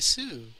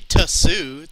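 First: It is blurred together into one syllable. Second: It is split into two separate syllables. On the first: The speaker calls it right. "You gotta blur your syllables together. That's how the Japanese say it" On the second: The speaker calls it wrong. "they don't say tusu"

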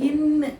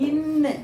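Both takes have the same delivery.

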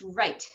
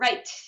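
First: The final t has a short, ordinary release. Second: The final t sounds almost like an s. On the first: "rather than just right" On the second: "sometimes it even sounds like an S"

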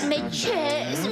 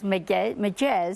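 First: It is said in a Cretan regional accent. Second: It is said in a plain standard Greek accent. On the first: "κριτικά το λέω τώρα" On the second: "Όχι απλώς «μεκές»"

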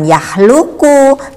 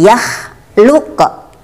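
First: The word ends on a full vowel. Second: The word ends on a bounced, stopped consonant. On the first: The speaker calls it wrong. "Bukan yah luku" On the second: The speaker calls it right. "harus berhenti dibaca kol-kolah, dibaca pantul"

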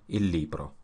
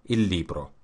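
Both takes have the same delivery.

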